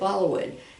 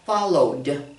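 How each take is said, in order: First: The ending is not a plain D sound. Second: The ending is just a plain D sound. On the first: The speaker calls it wrong. "they'll say followed. No" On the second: The speaker calls it right. "Put just the D sound"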